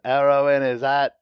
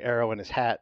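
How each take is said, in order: First: It is said in a Cockney accent. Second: It is said in a plain, neutral accent. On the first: The speaker calls it right. "when he goes arrow in his hat" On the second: The speaker calls it wrong. "if I say arrow in his hat"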